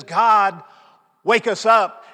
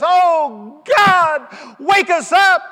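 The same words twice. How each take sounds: First: Louder, pressing plea; more emphasis. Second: High, loud, slow crying plea; tearful cry. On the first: Praying leader calls on God, louder plea. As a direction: raise the plea, imitating the leader. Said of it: "this time with a little more emphasis". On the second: Leader weeps and cries to God, loud high plea. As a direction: cry it out to heaven. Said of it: "tears streaming down his cheek". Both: Retold or imitated.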